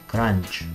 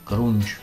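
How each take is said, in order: First: The vowel is an open 'a' sound. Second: The vowel is a rounded 'u' sound. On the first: "Думаю, все-таки кранч" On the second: "не знаю, как правильно назвать"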